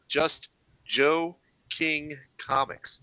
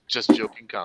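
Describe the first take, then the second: First: The name is said slowly, words kept apart. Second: The name is said fast, words run together.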